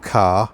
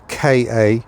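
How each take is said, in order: First: It is said as one word, like car. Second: It is spelled out as two letter names. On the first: "I'm going with car" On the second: "not um, K A"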